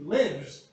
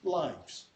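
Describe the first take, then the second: First: The vowel is a short 'i' sound. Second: The vowel is a long 'eye' sound. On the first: It is used as a verb. "the first one, okay, is a verb" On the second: It is used as a noun. "the last one is a noun"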